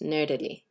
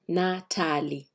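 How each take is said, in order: First: It is pronounced with English sounds. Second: It is pronounced with Swahili sounds. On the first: The speaker calls it wrong. "That's English" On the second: The speaker calls it right. "we should pronounce it in Swahili"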